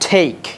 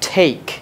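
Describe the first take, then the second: First: The t is said the English way. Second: The same.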